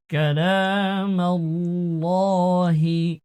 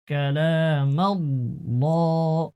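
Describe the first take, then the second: First: কালামাল্লাহি with the lam of আল্লাহ full and thick, slow and louder; heavy lam in Allah. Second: Said in the usual way. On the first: Shown as a demonstration. Teacher shows students the heavy Allah lam, drawn out. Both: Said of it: "আল্লাহ শব্দের লাম পুর করতে হবে".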